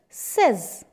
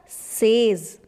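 First: The vowel sounds like the one in 'set'. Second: The vowel sounds like the one in 'say'. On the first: The speaker calls it right. "But it's says" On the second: The speaker calls it wrong. "most of the time everybody use it as says"

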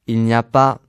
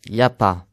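First: Every syllable is pronounced in full. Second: Sounds are dropped and run together.

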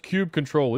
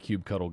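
First: The ending is said as the word control. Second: The ending is said like the word cuddle. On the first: The speaker calls it wrong. "The people that get all up in arms about it" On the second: The speaker calls it right. "You like to cuddle your cubes"

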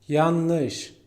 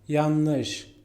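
The two takes are said the same way.

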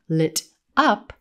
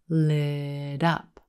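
First: The T is a crisp stop, separate from up. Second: The T is a quick flap linked into up. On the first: The speaker calls it wrong. "It's not lit up" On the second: The speaker calls it right. "That T at the end of lit becomes a flap T"

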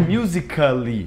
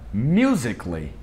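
First: A full vowel is heard before the final 'ly'. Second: No vowel is heard before the final 'ly'. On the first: The speaker calls it wrong. "não é musically" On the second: The speaker calls it right. "O mesmo vale para musically"

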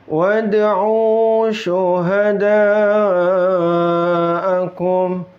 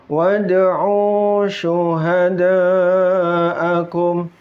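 The two takes are said the same way.

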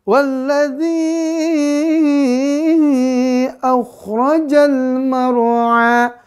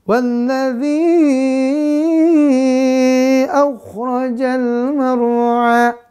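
Both takes have the same delivery.

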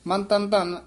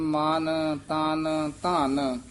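First: The first two words have short vowels. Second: The first two words have long vowels. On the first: The speaker calls it wrong. "ਇਉਂ ਨਹੀਂ ਬੋਲ ਦੇਣਾ" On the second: The speaker calls it right. "ਇਸੇ ਤਰ੍ਹਾਂ ਨਖੇਰ ਕੇ ਪਦ ਪੜ੍ਹਨੇ ਹਨ"

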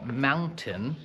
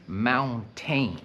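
First: The last syllable is short and reduced. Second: The last syllable rhymes with 'main'. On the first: The speaker calls it right. "jak wymawiam słowo mountain" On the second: The speaker calls it wrong. "to nie wymawiam mountain"

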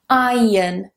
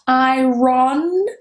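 First: The word is said with no R sound. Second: The word is said with an R sound. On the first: The speaker calls it right. "that R is not pronounced in British English" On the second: The speaker calls it wrong. "Not iron"

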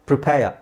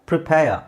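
Both takes have the same delivery.

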